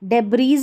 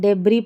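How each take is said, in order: First: The word ends with an s sound. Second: The word ends on a vowel. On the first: The speaker calls it wrong. "इसको डेब्रीज नहीं पढ़ना है" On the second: The speaker calls it right. "डेब्री पढ़ते हैं"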